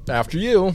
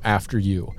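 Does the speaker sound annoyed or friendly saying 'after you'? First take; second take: friendly; annoyed. First: It is said in a friendly, smiling tone. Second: It is said in an annoyed, grudging tone. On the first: The speaker dislikes the situation but stays gracious. The speaker calls it right. "would have done a smile" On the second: The speaker is openly resentful about letting the other go first. The speaker calls it wrong. "he makes a face that's like, I'm mad at you"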